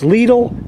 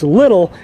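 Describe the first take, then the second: First: It is pronounced the German way. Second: It is pronounced the American way. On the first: "If you're German and it's Lidl" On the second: "so it's Little as far as I'm concerned here in the States"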